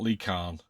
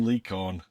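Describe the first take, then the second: First: The surname sounds like the word 'khan'. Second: The surname sounds like the word 'corn'. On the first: The speaker calls it wrong. "not Lee Khan" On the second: The speaker calls it right. "I'm Lee Corn"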